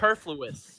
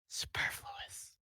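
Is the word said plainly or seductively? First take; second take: plainly; seductively. First: It is said in a plain, neutral way. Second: It is said in a seductive way.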